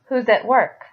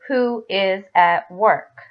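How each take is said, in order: First: Who and is are blended into one syllable. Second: Who and is are said as separate words. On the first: "You'll hear them say" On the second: "a lot of times you will not hear people say"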